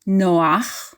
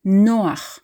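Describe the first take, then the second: First: Noach with the weight on ACH; wrong stress on last syllable. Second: Noach with the weight on NO; stress on first syllable. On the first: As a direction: push the ACH in Noach, slowly. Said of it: "It's not Noach, stressing the last syllable". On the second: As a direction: slowly lean on NO in Noach. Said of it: "stressing the second from last syllable". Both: Shown as a demonstration.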